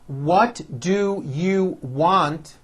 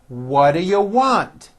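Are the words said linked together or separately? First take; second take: separately; linked. First: Each word is said fully and separately. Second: The words are reduced and run together.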